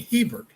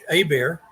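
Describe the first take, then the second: First: The name is said with an English pronunciation. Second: The name is said with a French pronunciation. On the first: "make it English by saying Hebert" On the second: "pronounce it in the French"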